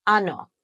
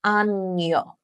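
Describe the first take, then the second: First: Ano with a simple n, no glide; plain Spanish n. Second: Año said slowly with an ny glide; Spanish ñ. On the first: Teacher demonstrating N without the squiggly, plain n in ano. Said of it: "The N without the squiggly sounds like this". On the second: Teacher demonstrating the squiggly N, ny in año. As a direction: say año as AN-yo, like canyon. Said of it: "the N with the squiggly on top sounds like this". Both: Shown as a demonstration.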